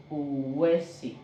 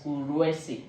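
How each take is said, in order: First: Uwesi slowly, with no R; correct uwesi, no R. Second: Uruesi with an inserted R; R added in uruesi. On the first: Teacher sounding out the word, uwesi without R. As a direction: stretch uwesi, leaving out any R. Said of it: "this is the one you are hearing". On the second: Teacher showing a common mistake, R added in uruesi. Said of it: "a lot of people write it as". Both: Shown as a demonstration.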